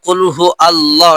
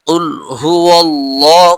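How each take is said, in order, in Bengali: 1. 'Hu' এবং 'Allah' আলাদা করে বলা হয়। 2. 'Huwa' সরাসরি 'Allah'-তে গিয়ে মেশে।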